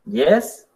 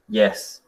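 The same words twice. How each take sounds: First: YES gliding upward like a question; rising tone. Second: YES dropping low at the end; falling tone. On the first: (YES con tono ascendente) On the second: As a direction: let YES sink like a closed answer. (YES con tono descendente) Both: Shown as a demonstration.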